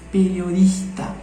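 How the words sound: The consonant before the t is an r sound. "Trocar por R. Então ficaria periodista"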